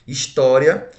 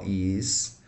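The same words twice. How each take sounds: First: Said in the usual way. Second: "história" split into his, tó, ria; separado em sílabas. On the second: Shown as a demonstration. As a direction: pause between each syllable of "história". ("história" pausadamente, sílaba por sílaba) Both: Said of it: "eu separo assim".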